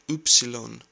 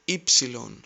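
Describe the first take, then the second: First: The first vowel sounds like oo. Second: The first vowel sounds like ee. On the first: The speaker calls it wrong. "You heard it like Upsilon" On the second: The speaker calls it right. "Replace U with E and say Ypsilon"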